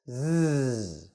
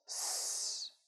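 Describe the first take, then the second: First: A buzzing sound made with the voice. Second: A hissing sound made without the voice. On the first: "the voiced S pronunciation is a voiced consonant. It sounds like this" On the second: "The unvoiced S pronunciation sounds like S. We don't add our voice"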